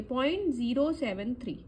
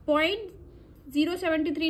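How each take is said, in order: First: "ज़ीरो सेवन थ्री" with each digit said separately; teacher shows the right way, one digit at a time. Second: "ज़ीरो सेवेंटी थ्री" read as one number, seventy-three; "सेवेंटी थ्री" run together as a single number, to show the mistake; wrong reading. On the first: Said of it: "हम इसको अलग-अलग पढ़ेंगे". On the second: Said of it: "नहीं पढ़ेंगे". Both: Shown as a demonstration.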